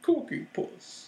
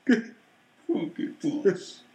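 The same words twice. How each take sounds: First: High, soft, drawn-out silly voice; goofy high call, quietly stretched out; silly put-on voice. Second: Very slow, muffled silly voice; voice into a can. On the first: Joking to make the co-host laugh, silly voice. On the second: Acted. Redoing the joke for the co-host, into a can. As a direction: stretch it out as if talking into a can. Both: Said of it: "I need to say that into the can".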